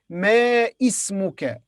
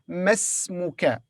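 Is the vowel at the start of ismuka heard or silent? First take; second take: heard; silent. First: The two words stay apart; the vowel is heard. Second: The two words merge; the vowel is silent. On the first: The speaker calls it wrong. "We don't say ma ismuka" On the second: The speaker calls it right. "the alif here in the beginning of ismuka will be silent. So we'll say masmuka"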